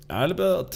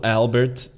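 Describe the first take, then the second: First: High, soft mock-German pronunciation; high-pitched, badly faked German; attempted German accent. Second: Said in the usual way. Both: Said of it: "why can I not do a German accent?".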